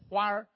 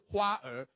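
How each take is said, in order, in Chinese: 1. 这是用北京口音说的。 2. 这是用台湾口音说的。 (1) "你们是讲花儿对不对？厉害吧，对不对？我这练很久" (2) "我们以前读是花儿"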